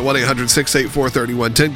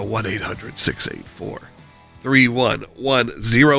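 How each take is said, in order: First: The number is said at normal speed. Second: The number is said more slowly.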